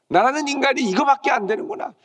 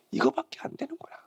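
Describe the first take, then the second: First: Raised lament. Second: Soft lament. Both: Acted.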